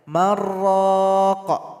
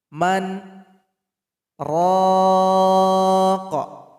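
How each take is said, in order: First: The two words run together without any pause. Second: A held-breath pause separates the two words. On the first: The speaker calls it wrong. "Salah kalau kita baca tanpa dijeda" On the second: The speaker calls it right. "harus kita jeda dulu selama dua detik"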